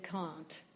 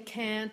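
First: The vowel is a broad 'ah' sound. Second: The vowel is a flat 'a' sound. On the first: This is how Cockney speakers say it. "the ah split. ... they say can't" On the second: This is how the speaker's own accent says it. "We say can't"

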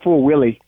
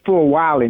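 First: The name's first syllable sounds like 'will'. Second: The name's first syllable sounds like 'why'. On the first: The speaker calls it wrong. "not Full Willie" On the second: The speaker calls it right. "her name is Full Wiley"

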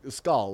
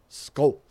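First: The vowel is a plain long A sound. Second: The vowel blends an A and an O sound. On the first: The speaker calls it wrong. "like with a long A noise" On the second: The speaker calls it right. "it's an A and an O sound at the same time"

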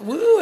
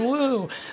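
First: The cheer sounds bright and enthusiastic. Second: The cheer sounds hesitant and uneasy. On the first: The crowd is eager about the topic. "how many of you are excited about the possibilities of AI" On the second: The crowd is worried about the topic. "how many are nervous and a little worried"

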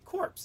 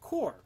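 First: The word ends with audible p and s sounds. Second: The word ends in r, p and s silent. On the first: It names a dead body. The speaker calls it wrong. "it's not pronounced corpse" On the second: It names a group or force. The speaker calls it right. "It's pronounced core"

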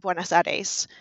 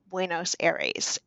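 First: The name is said with a Spanish accent. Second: The name is said with an English accent. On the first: This is how it is said today. "as we would today, sort of with the Spanish accent" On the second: This is how the movie says it. "or how they say"

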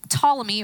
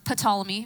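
First: The initial P is silent. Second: The initial P is pronounced. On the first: The speaker calls it right. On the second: The speaker calls it wrong.

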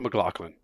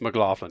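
First: The name is said the New Zealand way. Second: The name is said the American way. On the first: The speaker calls it wrong. "It's not McLaughlin" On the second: The speaker calls it right. "If you're from America, it's McLaughlin"

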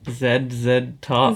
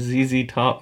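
First: The letters are said the Canadian way, 'zed'. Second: The letters are said the American way, 'zee'.

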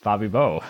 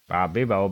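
First: The stress is on the third syllable. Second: The stress is on the first syllable.

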